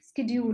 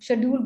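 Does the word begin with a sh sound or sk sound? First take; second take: sk; sh. First: The word begins with a sk sound. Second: The word begins with a sh sound. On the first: This is how it is said now. "अब वो स्केड्यूल हो गया है ना" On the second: This is how it used to be said. "शेड्यूल बोलते थे"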